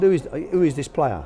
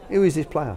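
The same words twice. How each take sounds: First: Put-on half-hearted Israeli accent, pitched up; a faint hint of an Israeli accent; attempted Israeli accent. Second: Put-on a second light go at the Israeli accent; weak Israeli accent, lightly voiced; retried Israeli accent. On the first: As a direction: try Berkovic's Israeli accent and give up on it. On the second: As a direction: redo the Israeli accent, barely there. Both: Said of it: "I can't do his accent".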